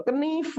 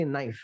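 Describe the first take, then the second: First: "knife" as "kuh-neef", K sounded; raised two-syllable "kuh-neef" for knife; impossible reading. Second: "knife" as "naif", silent K; certain reading. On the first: Teacher ruling out a reading, knife as "kuh-neef". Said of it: "Bacanya nggak mungkin". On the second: Teacher confirming the reading, knife as "naif". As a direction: drop the K in "knife". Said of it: "pasti knife gitu". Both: Shown as a demonstration.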